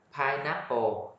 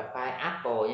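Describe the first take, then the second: First: "pineapple" with the n linked, "pai-NA-po"; correct linked pronunciation. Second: "pineapple" split as "pai-apple", the n dropped; wrong unlinked pronunciation. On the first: Teacher models the word for learners, n linked through. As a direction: carry the n of pine into "apple" in "pineapple". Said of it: "Cái này đọc là pineapple". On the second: Teacher warns learners off it, unlinked pronunciation. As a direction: say "pineapple" without linking n into "apple". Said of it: "đừng đọc là pineapple". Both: Shown as a demonstration.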